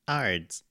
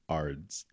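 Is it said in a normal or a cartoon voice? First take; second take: cartoon; normal. First: It is said in a cartoon voice. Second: It is said in a normal voice.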